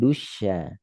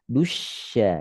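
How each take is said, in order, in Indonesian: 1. Suara tetap lemah pada bunyi 'sh'. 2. Suara naik kuat pada bunyi 'sh'. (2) "Naikkan suara pada shin sukun"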